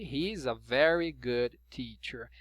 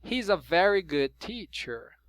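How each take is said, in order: First: Slower, careful take of He's a very good teacher; slow model sentence. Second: Said in the usual way. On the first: Shown as a demonstration. Teacher modelling the sentence for students, slow and clear. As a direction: spell out each word of He's a very good teacher for learners.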